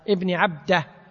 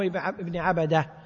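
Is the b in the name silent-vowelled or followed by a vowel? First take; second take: silent-vowelled; vowel. First: The b carries no vowel after it. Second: The b is followed by a short vowel. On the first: The speaker calls it right. "بسكون الباء" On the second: The speaker calls it wrong. "مو ابن عبده"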